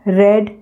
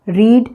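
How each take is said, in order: First: The vowel is short, like in 'red'. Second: The vowel is long, like in 'reed'. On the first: It is the past or second form. "Second form को रेड पढ़ते हैं" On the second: It is the present or first form. "रीड यानी पढ़ना"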